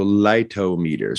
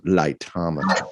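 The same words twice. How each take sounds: First: "lightometer" split into light-oh-MEE-ter, drawn out; light-oh-meter pronunciation. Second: "Lightometer" stressed on TOM, light-TOM-uh-ter; English-style pronunciation. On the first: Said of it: "I have said on the show". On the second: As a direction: say "Lightometer" like "thermometer", short second vowel. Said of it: "very English pronunciation is wonderful". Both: Shown as a demonstration.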